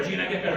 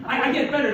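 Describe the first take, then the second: First: Said in the usual way. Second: Higher, louder, protesting; mock-pleading to a tough crowd; self-mocking insistence. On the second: Real, not acted. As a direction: plead the jokes get better.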